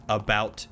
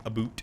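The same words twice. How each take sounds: First: Said in the usual way. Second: "a boot", about with an oo vowel; Canadian-style about. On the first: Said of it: "they say about in a way". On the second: Shown as a demonstration. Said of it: "that sounds like".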